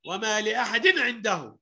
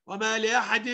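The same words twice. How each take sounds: First: وما لأحد عنده with a quick clear n before ع; don't hold the tanween in لأحد; clear izhar. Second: وما لأحد with the final n held and hummed; wrong lingering tanween. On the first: Teacher showing izhar, quick clear n in لأحد. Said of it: "أقول النون الساكنة بسرعة". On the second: Teacher showing the mistake, held n ending لأحد. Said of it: "ما ينفعش أقول إيه". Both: Shown as a demonstration.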